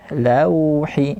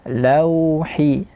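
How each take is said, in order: The two takes are said the same way.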